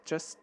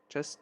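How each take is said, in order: No difference in how they are said.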